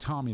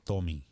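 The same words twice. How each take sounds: First: The name is said with an American accent. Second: The name is said with a Spanish accent. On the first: This is how the speaker says his own name. The speaker calls it right. "instead of saying Tommy" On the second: This is how people in Puerto Rico said his name. The speaker calls it wrong. "they would say Tommy"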